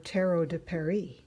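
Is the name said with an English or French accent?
French. The name is said with a French accent.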